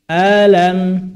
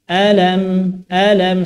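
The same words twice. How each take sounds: First: "Alam" with the first vowel stretched too long; wrong long alif. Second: "alam" with a short clean first vowel; correct short alif. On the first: Teacher demonstrating the common mistake of an overlong hamzah. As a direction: drag out the A of "Alam". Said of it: "sehingga hamzahnya kepanjangan". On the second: Teacher showing the correct short hamzah. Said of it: "padahal yang benar alam". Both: Shown as a demonstration.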